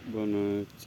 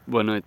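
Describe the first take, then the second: First: It is said with little energy. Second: It is said with more energy.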